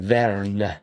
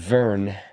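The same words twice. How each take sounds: First: The name is said with a slight Italian accent. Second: The name is said plainly, without a foreign accent.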